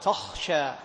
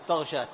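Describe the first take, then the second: First: The second consonant is voiceless and breathy. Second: The second consonant is voiced, like gh. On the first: The speaker calls it right. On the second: The speaker calls it wrong.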